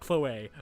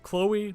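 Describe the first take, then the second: First: The name is said with the accented ending. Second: The name is said the plain English way. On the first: The speaker calls it wrong. "not Chloe. That's dumb" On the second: The speaker calls it right. "Screw that little accent mark. It is Chloe"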